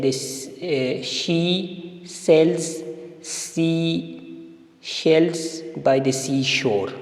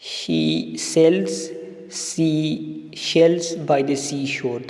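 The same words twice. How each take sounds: First: Each word read slowly and apart; reading the example one word at a time. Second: Very slow, stressing each s sound; slow stressed reading. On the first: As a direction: spell out each word with pauses. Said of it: "sentence है". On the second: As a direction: lean on every she and sea. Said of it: "तो इसमें she". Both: Shown as a demonstration.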